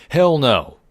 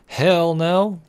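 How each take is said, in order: First: Loud, higher defiant yell; defiant shout. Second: Defiant shout. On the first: Player refuses daddy's bedtime order, loud defiant yell. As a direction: shout the refusal with full force. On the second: Refusing to stop at purse. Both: Pretend.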